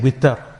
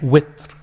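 First: A vowel is inserted between the final consonants. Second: The final consonants are said together without a vowel. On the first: The speaker calls it wrong. "we say Witr. It's just a mispronunciation" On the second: This is the original Arabic form. The speaker calls it right. "Instead of saying Witr"

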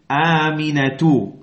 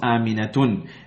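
First: The name ends on a vowel without n. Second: The name ends with an added n sound. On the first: The speaker calls it right. "Aminatu, not Aminatun" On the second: The speaker calls it wrong. "not Aminatun"

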